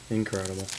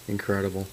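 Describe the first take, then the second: No difference in how they are said.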